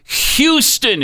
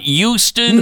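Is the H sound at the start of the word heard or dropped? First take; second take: heard; dropped. First: The word begins with a clear H sound. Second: The word begins without an H sound. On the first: The speaker calls it right. "Why can't you say the H in the word? It's Houston" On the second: The speaker calls it wrong. "It's not Houston"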